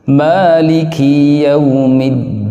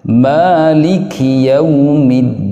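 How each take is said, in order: First: The vowel after the k is lengthened. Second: The vowel after the k is short. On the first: The speaker calls it wrong. "Akafnya menjadi panjang satu alif" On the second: The speaker calls it right.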